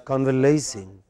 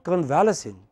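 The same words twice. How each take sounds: First: Convalescing as con-vuh-LAY-sing; correct pronunciation. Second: Convalescing with stressed VAL, weak LES; mistaken pronunciation. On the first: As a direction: stretch a stressed LAY in convalescing. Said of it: "What is the correct pronunciation". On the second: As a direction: say convalescing as con-VAL-uh-sing. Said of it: "It is not convalescing". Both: Shown as a demonstration.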